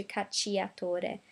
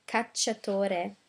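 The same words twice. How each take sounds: First: Cacciatore said ka-chee-a-TO-re, sounding the i; wrong pronunciation. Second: Cacciatore said ka-cha-TO-re, cci as one ch; correct Italian. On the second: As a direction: say Cacciatore with a single cha sound. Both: Shown as a demonstration. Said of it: "as opposed to cacciatore".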